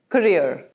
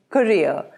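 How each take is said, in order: First: It is said in an American accent. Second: It is said in a British accent.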